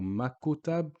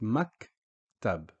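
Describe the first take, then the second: First: A 'u' vowel is inserted after the K. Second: The K stops with no vowel after it. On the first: The speaker calls it wrong. "or makutab" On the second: The speaker calls it right. "it's just maktab"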